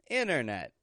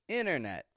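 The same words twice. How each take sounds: Both takes have the same delivery.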